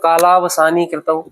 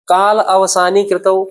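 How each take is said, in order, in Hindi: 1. शब्द आपस में मिले हुए, जोड़ पर एक लंबा स्वर। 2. दो अलग शब्द, छोटे स्वर अलग-अलग रखे गए।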